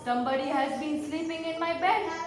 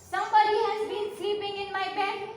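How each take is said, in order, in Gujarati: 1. તે મોટા, ઊંડા અવાજમાં બોલાય છે. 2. તે શાંત, નરમ અવાજમાં બોલાય છે. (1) "in his great big Papa Bear voice" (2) "in her quiet, gentle voice"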